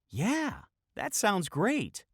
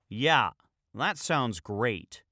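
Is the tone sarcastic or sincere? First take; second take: sincere; sarcastic. First: It is said sincerely, without attitude. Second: It is said with a sarcastic attitude.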